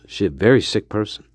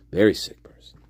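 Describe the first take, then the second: First: Said in the usual way. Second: Hushed whispered aside. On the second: Shown as a demonstration. Host whispers his verdict on the killer to listeners. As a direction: drop to a whisper on the repeat.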